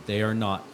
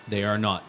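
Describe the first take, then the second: No difference in how they are said.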